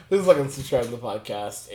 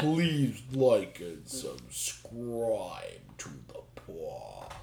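First: Said in the usual way. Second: Very slow, dragged-out words; slow motion. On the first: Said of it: "speak in slow motion". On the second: Pretend. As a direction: stretch every word way out. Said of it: "You're gonna just speak in slow motion".

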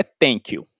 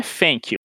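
First: "thank you" said as "tank you", th turned into a hard t; "thank you" pronounced "tank you" by a Brazilian learner. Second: "thank you" said as "fank you", th turned into an f; "thank you" pronounced "fank you" by a Brazilian learner. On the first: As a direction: say "thank you" with a plain t, "tenki u". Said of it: "Aí o seu professor vai falar assim". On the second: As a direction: say "thank you" with lip-on-teeth f, "fenki u". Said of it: "Aí o professor vira e fala assim". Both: Shown as a demonstration.

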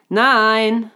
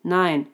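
First: Loud, raised, drawn-out NEIN; louder refusal. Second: Said in the usual way. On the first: A narrator's reading. Unicorn repeats the refusal to a deaf raccoon, loudly. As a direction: say it forcefully for someone who didn't hear.

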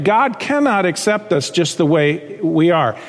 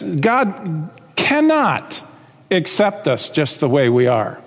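First: Said in the usual way. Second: "cannot" drawn out very slowly with a pause after it; stress on cannot. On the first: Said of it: "So let's get that straight". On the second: Shown as a demonstration. Preacher correcting a false idea for his congregation, slow weighty stress on "cannot". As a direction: lean hard on "cannot", then pause before "accept us". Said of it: "Well, let me say this".

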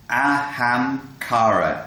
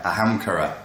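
First: Ahamkara drawn out slowly, syllable by syllable; word demonstration. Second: Said in the usual way. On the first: Shown as a demonstration. Teacher introducing the Sanskrit word for ego, slow demonstration.

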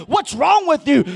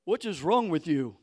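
First: Loud scornful question; mock scolding, loud; mocking accusation. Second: Low, soft sneering question; quiet mock disdain. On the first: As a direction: throw the accusation at him. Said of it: "they're like". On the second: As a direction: mutter it with contempt. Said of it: "you speak in tongues".

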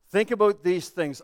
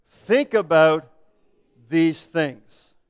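First: Said in the usual way. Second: Very slow and deliberate, pausing mid-phrase; slow scripture reading. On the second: Real, not acted. Pastor closing a verse read together, slow and deliberate. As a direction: draw it out for a group reading aloud. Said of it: "I'm gonna read it slowly".

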